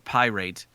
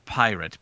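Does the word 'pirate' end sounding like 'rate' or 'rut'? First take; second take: rate; rut. First: The last syllable rhymes with 'rate'. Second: The last syllable sounds like 'rut'. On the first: It is made to rhyme with irate. "you keep saying pirate" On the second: It is the usual everyday pronunciation. "instead of pirate"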